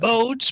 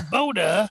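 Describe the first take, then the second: First: The name ends with an s sound. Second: The name ends with an uh vowel. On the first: The speaker calls it wrong. "everybody wants to call it" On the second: The speaker calls it right. "they they pronounce that e on the end"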